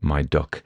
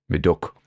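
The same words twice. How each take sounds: First: It is said without a local Potteries accent. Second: It is said in a local Potteries accent. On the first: The speaker calls it wrong. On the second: The speaker calls it right.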